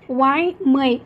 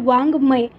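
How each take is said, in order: First: The middle consonant sounds like a 'y'. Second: The middle consonant is a nasal 'ng' sound. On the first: The speaker calls it wrong. "असं न म्हणता" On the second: The speaker calls it right. "याला वाङ्मय असं म्हणतो"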